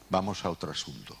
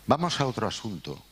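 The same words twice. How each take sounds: First: Said in the usual way. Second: A dry Valladolid-accent "Vamos a otro asunto", pitched higher like a notary's closing line. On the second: Shown as a demonstration. El director imita el acento de Valladolid, frase de notario. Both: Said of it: "con acento de Valladolid".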